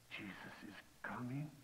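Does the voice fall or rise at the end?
rise. The voice rises at the end. The man is asking, full of doubt. "it sounded more like a question"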